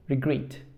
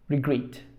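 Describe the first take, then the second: No difference in how they are said.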